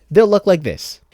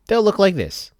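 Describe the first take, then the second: No difference in how they are said.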